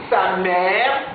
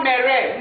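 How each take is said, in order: First: Mère said as mɛ, lower; correct mère. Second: Mère mispronounced mɛrɛ; wrong mère. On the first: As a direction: say mère short, with no extra syllable. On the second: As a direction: say mère as mɛrɛ, adding a syllable. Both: Shown as a demonstration. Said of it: "ça c'est une fausse prononciation".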